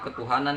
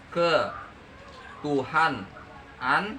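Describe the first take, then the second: First: The word is said smoothly as one unit. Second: The word is broken into separate parts.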